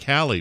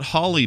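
First: The first syllable rhymes with sally. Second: The first syllable rhymes with holly. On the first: The speaker calls it right. "It is pronounced Sally, Bally, Rally, or Tally like Halle" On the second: The speaker calls it wrong. "Berry is not Holly Berry"

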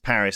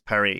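First: Paris is pronounced the English way. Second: Paris is pronounced the French way. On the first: "in English, Paris is Paris" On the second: "in French, Paris is Paris"

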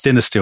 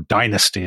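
First: It is said the British way. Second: It is said the American way.

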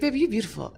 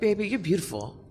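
First: It is said in a put-on imitating voice. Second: It is said in her own ordinary voice.

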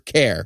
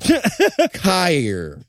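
First: The word is said in a plain accent. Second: The word is said in a redneck accent.

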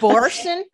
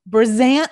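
First: The middle consonant is an s sound. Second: The middle consonant is a z sound. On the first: "is that Borson? Am I saying it wrong?" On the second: "Oh, there's a Z"

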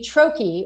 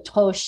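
First: The word has an American English pronunciation. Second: The word has a French pronunciation. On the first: The speaker calls it wrong. "we Americans butcher the pronunciation" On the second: The speaker calls it right. "it's really toche in French"

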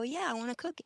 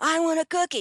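First: It is said in a calm, polite voice. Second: It is said in a whiny, demanding voice.

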